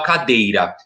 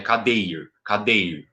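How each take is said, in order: First: Said in the usual way. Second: Cadeir said with the final A dropped, ending on the R; stem without final vowel. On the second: Shown as a demonstration. Teacher showing students the stem, cadeir without the final A. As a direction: say cadeir, stopping right after the R. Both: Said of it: "tira o A no final".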